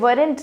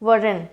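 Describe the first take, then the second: First: The final t sound is clearly pronounced. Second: The final t sound is left silent. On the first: The speaker calls it wrong. "वरेंट नहीं" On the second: The speaker calls it right. "वरन होगा, pronunciation इसका ये है"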